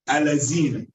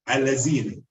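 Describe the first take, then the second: First: The middle consonant is pronounced like a z. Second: The same.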